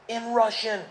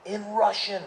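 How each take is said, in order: Both takes have the same delivery.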